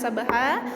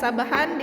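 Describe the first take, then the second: First: The word ends with a long a vowel. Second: The word ends with an n sound.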